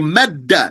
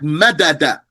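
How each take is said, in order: First: The two d sounds merge into one doubled d. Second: A vowel separates the two d sounds. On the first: The speaker calls it right. "You say madda" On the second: The speaker calls it wrong. "not madada"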